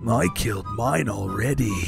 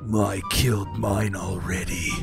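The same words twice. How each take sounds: First: It is said in a lighter, less serious tone. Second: It is said in a serious tone.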